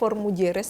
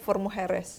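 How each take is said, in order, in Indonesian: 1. For Mujeres diucapkan dengan bunyi Indonesia. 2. For Mujeres diucapkan dengan bunyi Spanyol. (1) "kalau pelafalan Indonesia" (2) "kalau pelafalan Spanyolnya"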